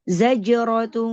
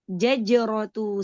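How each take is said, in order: First: It starts with z, then a j sound. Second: It starts with j, then another j sound. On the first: The speaker calls it right. "Za pertama za, kedua jim" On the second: The speaker calls it wrong. "Jangan jim semua. Jaj jajratu salah"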